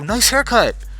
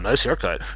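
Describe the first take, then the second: First: It is said in a warm, sincere tone. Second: It is said in a mean, sarcastic tone. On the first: The speaker loves the haircut. "like I meant, like, I love your hair" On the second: The speaker dislikes the haircut. "he was like really mean. He doesn't like my hair"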